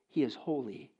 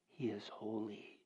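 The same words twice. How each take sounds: First: Said in the usual way. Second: Hushed awe. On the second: Acted. Preacher to his congregation, repeating God's holiness in a hushed voice. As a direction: drop to a soft, slow near-whisper. Repeating God is holy, fading.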